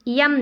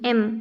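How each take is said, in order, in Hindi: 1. यह य ध्वनि से शुरू होता है। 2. यह सीधे स्वर से शुरू होता है।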